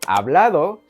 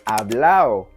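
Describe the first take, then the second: First: The d between the last vowels is pronounced. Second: The d between the last vowels is dropped.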